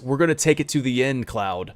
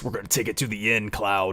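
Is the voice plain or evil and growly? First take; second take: plain; evil, growly. First: It is said in a plain voice. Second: It is said in an evil, growly voice.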